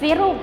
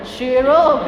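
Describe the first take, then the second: First: The word begins with an s sound. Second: The word begins with a sh sound. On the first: The speaker calls it right. "Enggak, sirup" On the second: The speaker calls it wrong.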